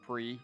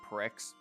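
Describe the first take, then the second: First: The word ends on a vowel, no 'ks' sound. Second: The word ends with a clear 'ks' sound. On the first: The speaker calls it right. "and not pre" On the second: The speaker calls it wrong. "thought that this was pronounced pricks"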